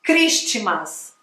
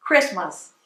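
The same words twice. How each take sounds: First: Christmas said kris-ti-mas, with the t and an added vowel; wrong Christmas. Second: Christmas said kris-mas, t silent; correct Christmas. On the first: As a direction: show the common mistake kris-ti-mas. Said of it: "Tem gente que fala Christmas". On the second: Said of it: "Olha a diferença". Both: Shown as a demonstration.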